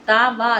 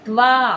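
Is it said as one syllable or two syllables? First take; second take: two syllables; one syllable. First: The consonants are split into two full syllables. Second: The consonants join into one syllable. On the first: The speaker calls it wrong. "తా వా అనట్లేదు" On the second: The speaker calls it right. "త్వా అంటున్నాం"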